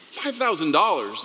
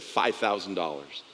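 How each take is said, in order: First: Pitched up in mock disbelief; surprised echo. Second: Said in the usual way. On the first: Pastor echoing the quoted price, surprised. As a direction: echo the price back, amazed it's so little.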